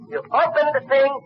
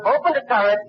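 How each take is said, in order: First: Higher still, fumbling "you opened the thing" in the rush; even more excited. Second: High, breathless rush on "opened the turret"; excited retelling. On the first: Fan fumbling the tank scene for Bogart, higher and excited. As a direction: lose the word as the excitement peaks. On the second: Fan retelling the tank scene to Bogart, high and excited. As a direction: get swept up as the hero reaches the tank. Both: Retold or imitated. Climax of retold battle scene.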